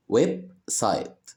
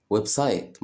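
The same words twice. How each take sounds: First: "ويب سايت" with a clear pause between web and site; split into syllables. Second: Said in the usual way. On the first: Shown as a demonstration. Teacher showing children two syllables, "ويب سايت" split in two. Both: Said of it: "فيها مقطعين صوتيين".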